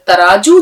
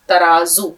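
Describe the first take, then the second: First: The middle consonant is a j sound. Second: The middle consonant is a z sound. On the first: The speaker calls it wrong. "वो कोई लफ्ज नहीं होता। अगर आपने ज की आवाज निकाली" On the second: The speaker calls it right. "जेड की आवाज निकालिए"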